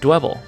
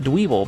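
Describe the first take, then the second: First: The first vowel is short, rhyming with pebble. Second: The first vowel is long, like in dweeb. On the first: The speaker calls it right. "which sounds like Pebble" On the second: The speaker calls it wrong. "I call it Dweeble because it sounds like dweeb"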